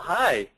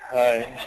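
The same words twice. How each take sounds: First: The greeting sounds calm and friendly. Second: The greeting sounds odd and weird.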